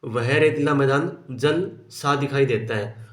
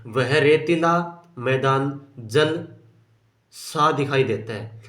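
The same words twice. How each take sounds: First: Said in the usual way. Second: "जल ... सा" with a pause between जल and सा, read slowly; pause after जल. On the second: Shown as a demonstration. Teacher reading the sentence aloud to the class, with a pause after जल. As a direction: break "जल" from "सा" so it sounds like jalsa split. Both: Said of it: "जल और सा के बीच में थोड़ा विराम हो गया".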